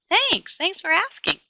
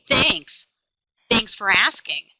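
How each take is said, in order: First: It sounds warm, excited and sincere. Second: It sounds flat, unconvincing and insincere. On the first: The person really had a good day and is thankful. "I believe him. He had a good day. He seems excited to be home" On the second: The person is not really thankful. "Did you hear the difference in his tone? ... Do you believe that he was thankful? No"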